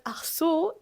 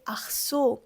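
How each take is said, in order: First: Ach so with a hard, rasped ch in the throat. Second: Ach so with the ch barely sounded; soft Ach so. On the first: Teacher demos Ach so to learners, hard ch. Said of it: "they don't always pronounce the C H so hard". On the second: Teacher shows learners the softer Ach so. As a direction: let the ch in Ach so go soft and light. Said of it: "They don't always say". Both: Shown as a demonstration.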